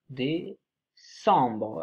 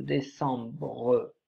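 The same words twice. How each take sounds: First: Décembre drawn out very slowly, syllable by syllable; dictating décembre, stretching each syllable; slowly stretched. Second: Décembre said slowly, each syllable drawn out; teacher dictating décembre at a crawl; slowly stretched. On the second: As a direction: draw out décembre so pupils can write it. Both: Shown as a demonstration. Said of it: "word said slowly after spelling".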